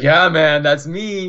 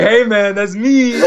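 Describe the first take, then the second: First: A light, casual imitation of Big D; imitating Big D. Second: Higher hammed-up Big D voice; imitating Big D. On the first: Player quoting Big D's reply in a light imitation. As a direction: toss it off the way Big D says it. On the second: Fan retelling meeting Big D, doing a hammed-up higher Big D voice. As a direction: play Big D, pitched up and slightly louder. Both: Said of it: "That's how he sounds too".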